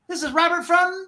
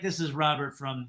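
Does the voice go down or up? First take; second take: up; down. First: The pitch and energy lift through the phrase. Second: The pitch and energy drop through the phrase. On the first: The speaker calls it right. "Just go up with that vocal tone" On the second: The speaker calls it wrong. "you can just feel that the energy going down"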